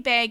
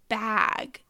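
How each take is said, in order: First: It is said with a Canadian accent. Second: It is said with a non-Canadian accent.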